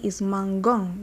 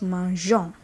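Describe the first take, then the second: First: The g is hard, like in 'go'. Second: The g is soft, like a 'zh' sound. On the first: The speaker calls it wrong. "Without the E, is mangeons, which is wrong" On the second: The speaker calls it right. "So to have the J sound, we leave the E to give us mangeon"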